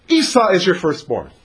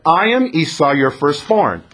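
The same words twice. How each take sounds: First: "Esau is your firstborn" said as its own flat statement after a pause; separate statement. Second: Said in the usual way. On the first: Shown as a demonstration. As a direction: set it apart as a plain fact. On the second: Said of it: "He didn't really say it that way".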